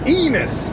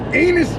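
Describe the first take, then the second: First: The name is said plainly as Enos. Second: The name is said to sound like anus. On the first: "Not anus, Enos" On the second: "it sounded like anus when he said it"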